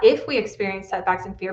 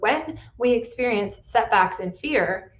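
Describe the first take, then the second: First: "if" stressed to rule it out. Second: "when" stressed, then a slight pause. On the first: Coach correcting herself for listeners, stress on "if". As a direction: lean on the word "if". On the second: Coach telling clients setbacks will come, stress on "when". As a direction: land firmly on the word "when". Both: Real, not acted.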